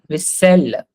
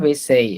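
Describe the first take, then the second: First: The double L sounds like a plain L. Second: The double L sounds like a Y. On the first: The speaker calls it right. "This is simply L" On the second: The speaker calls it wrong. "it's not vaisselle"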